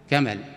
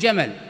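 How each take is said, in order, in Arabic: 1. تبدأ الكلمة بصوت بين q و k. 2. تبدأ الكلمة بصوت j المعتاد.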